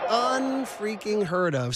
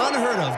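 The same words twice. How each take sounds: First: "Unfreaking heard of" stretched slowly, every syllable leaned on; slow it right down and savour "Unfreaking"; drawn-out emphasis. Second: Said in the usual way. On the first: Shown as a demonstration. Reworks the phrase for emphasis.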